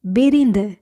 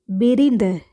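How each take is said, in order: Both takes have the same delivery.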